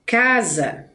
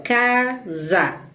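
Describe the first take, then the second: First: Said in the usual way. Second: CASA slowly as ca, za, with a gap; split into syllables. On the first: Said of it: "ó, casa". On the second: Shown as a demonstration. Teacher showing students how to distinguish syllables, casa split slowly. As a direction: break casa into two drawn-out beats, ca and za. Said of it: "Se a gente consegue distinguir".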